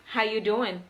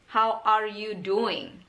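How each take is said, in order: First: Are is dropped and it is said faster. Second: Every word is said, including are. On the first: "Lebih cepat kan?" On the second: "Itu adalah kalimat panjangnya"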